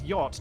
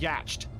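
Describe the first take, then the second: First: The word ends without a T sound. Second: The word ends with a clear T sound. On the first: The speaker calls it right. "how do you know that yacht is yacht" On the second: The speaker calls it wrong. "It's just a T that doesn't fit there"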